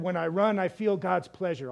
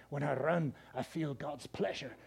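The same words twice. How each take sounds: First: Said in the usual way. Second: Low, soft, slowing attempt at a Scottish accent. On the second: Preacher imitating Eric Liddell's movie line, soft Scottish accent. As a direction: imitate a Scotsman gently, dropping quieter in a Scottish accent. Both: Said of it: "he said it with that good Scottish accent".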